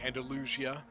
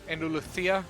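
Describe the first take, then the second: First: The middle consonant is a plain s sound. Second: The middle consonant is a th sound. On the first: This is the usual American way. The speaker calls it wrong. "most Americans, we usually say Andalusia" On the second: This is the Spanish way. The speaker calls it right. "the Spanish accent is actually kind of with a th"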